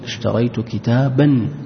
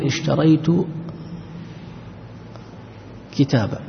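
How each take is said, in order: First: The word ends with an n sound. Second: The word ends on a long vowel without n. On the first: The speaker continues straight into the next word. "لكنك لو وصلت تقول" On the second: The speaker stops after this word. "عند الوقف أيضا لا تقف على التنوين"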